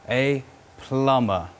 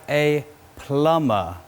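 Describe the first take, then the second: No difference in how they are said.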